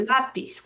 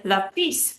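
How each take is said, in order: First: Lápiz as LÁ-piz; correct stress. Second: Lápiz as la-PIZ, end stressed; wrong stress. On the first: Teacher showing what we say, lápiz stressed on LÁ. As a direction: lean on the first syllable of lápiz. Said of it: "We're stressing the second to last syllable". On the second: Teacher showing the rule's form, lápiz stressed on PIZ. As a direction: lean on the final PIZ in lápiz. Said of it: "We should say lápiz". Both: Shown as a demonstration.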